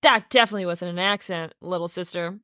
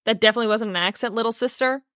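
First: Said in the usual way. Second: Quick, pitched-up mocking read; mocking quote. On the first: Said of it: "another sentence you could put in there that wasn't". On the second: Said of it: "his first line to her is like".

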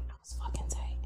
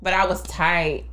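First: Breathy whispered confession. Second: Said in the usual way. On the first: Real, not acted. Admitting to her old coworker, whispered. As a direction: whisper it like a secret aside.

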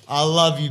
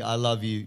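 First: Said in the usual way. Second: Softer, sincere I love you; softer sincere repeat. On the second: Real, not acted. Telling friend Bobby he loves him, softer and sincere. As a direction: say it again gently, meaning it.

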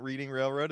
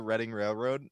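First: Reading said like "reeding", as in reading a book; wrong pronunciation of Reading. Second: Reading said like "redding"; correct pronunciation of Reading. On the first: Correcting a friend on Monopoly, Reading said as "REED-ing". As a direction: say Reading with a long EE. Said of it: "it's not Reading Railroad". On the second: Correcting a friend on Monopoly, Reading said as "RED-ing". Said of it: "it's not Reading Railroad, it's the". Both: Shown as a demonstration.

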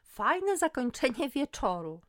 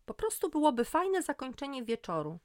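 First: Higher, louder, drawn-out mocking echo; scornful snort. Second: Higher, louder protest; defensive insistence. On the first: Friend mocks Magda's idea of ending the night, scornful. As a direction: throw it back slowly, scoffing. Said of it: "parsknęłam". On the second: Magda defends her beach idea to her friend, defensive. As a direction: insist it's just a nice idea. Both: A narrator's reading.

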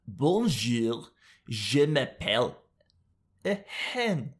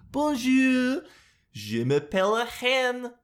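First: Lightly voiced French hen, mock French accent; a hint of a French hen introducing herself. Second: High, slow mock French hen; French hen accent. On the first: Vlogger playing a French hen, mock French accent. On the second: Vlogger voicing a French hen, high mock accent. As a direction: squawk out bonjour like a hen. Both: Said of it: "what a French hen sounds like".

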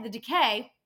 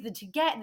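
First: "decay" said again cleanly as de-KAY, with a falling tune; corrected word. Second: "decay" stumbled and half swallowed, with a rising tune; garbled slip. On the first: Receptionist correcting herself mid-rant, saying "decay" cleanly. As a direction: fix the slip and say "decay" clearly. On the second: Receptionist venting about late patients, tripping over "decay". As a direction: trip over the word "decay" so it comes out mangled. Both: Real, not acted. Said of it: "excuse me".

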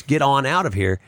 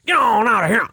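First: Said in the usual way. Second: Grandfather's dog call. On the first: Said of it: "I could say the words". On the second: Shown as a demonstration. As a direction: bark it at the dogs like grandpa. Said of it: "my dogs are on it".

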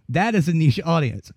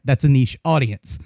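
First: "is" pushed up high and leaned on; stress on IS. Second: Said in the usual way. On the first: Shown as a demonstration. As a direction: hit the word "is" hard to correct yourself.

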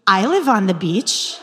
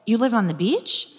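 First: "I live on the beach." said with a laugh, stress on "live"; laughing confirmation. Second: "You live on the beach?" with a rising, amazed tune on "live"; surprised question. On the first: The man confirms with a laugh. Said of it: "he repeats it". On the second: She asks the new man in mock disbelief. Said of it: "I said". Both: Retold or imitated.

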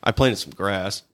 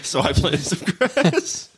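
First: A hint of British Connery drawl; Sean Connery British accent. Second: Exaggerated British Connery voice, slow and higher; slow, laughing Sean Connery British impression; hammed-up Sean Connery. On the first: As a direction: quote the line like a mild Sean Connery. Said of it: "I kinda went Sean Connery with it". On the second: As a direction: repeat it hamming the Connery British accent. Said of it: "Why'd you give him a British accent?".

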